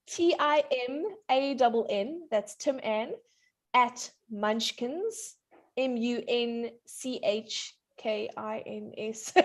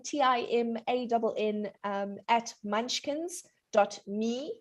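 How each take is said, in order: First: Slow, careful spelling for someone writing it down. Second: Email spelled out in a quick run; too fast. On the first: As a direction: spell it out slowly, piece by piece. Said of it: "slow down". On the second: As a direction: rattle off the address. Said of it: "You said it all too fast". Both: Real, not acted.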